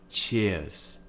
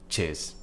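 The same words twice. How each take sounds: First: The word is said slowly with a gliding vowel. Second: The word is said quickly with a clipped vowel. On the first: "that's what we would call a more R P way of saying cheers" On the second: "a bit faster and a bit more, let's say, modern and quick"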